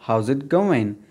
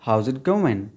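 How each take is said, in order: Both takes have the same delivery.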